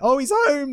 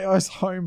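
First: It sounds delighted and excited. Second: It sounds dismayed and full of dread.

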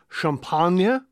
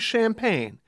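First: The word is said with a French pronunciation. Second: The word is said with an American pronunciation. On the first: This is how the French say it. "we don't say champagne" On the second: This is how Americans say it. "we say champagne"

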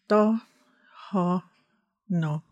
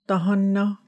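First: It is said slowly, syllable by syllable. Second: It is said smoothly at normal speed. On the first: "break that down? Like sort of syllables" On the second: "say that at regular speed one more time"

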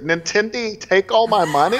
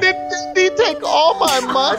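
First: It is said in an ordinary voice. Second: It is said in a babyish infant voice.

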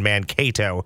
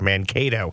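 First: The stress falls on the kato part. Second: The stress falls on the Man part.

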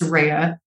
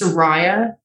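First: The middle syllable sounds like the word 'ray'. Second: The middle syllable does not sound like 'ray'. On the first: The speaker calls it right. "the way I like to pronounce it is Saraya, like a ray of sunshine" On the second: The speaker calls it wrong. "the American way of saying my name is Saraya because of the way you guys pronounce that R-A-Y"

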